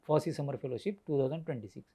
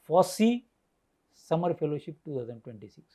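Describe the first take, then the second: First: All words are said in one even tone. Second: The word FOSSEE is stressed and set apart. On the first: "Earlier whole sentence is a common" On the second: "because here I emphasize the FOSSEE"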